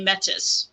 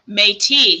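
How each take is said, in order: First: The word ends with a clear s sound. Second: The word ends without an s sound. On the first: "English would look at that and say métis" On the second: "that would be kind of a French way of saying that word"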